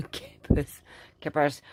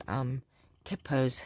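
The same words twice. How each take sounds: First: "kippers" breathed through a laugh. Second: Said in the usual way. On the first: Real, not acted.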